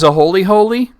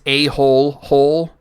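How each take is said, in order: First: Each 'hole' part is said with two syllables. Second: Each 'hole' part is said with one syllable. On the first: This is how the word is actually pronounced. "the word is a holy holy" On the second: This is how the written word looks. "when it's written it looks like it's a hole hole"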